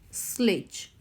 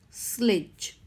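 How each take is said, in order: First: The vowel before the final sound is short. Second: The same.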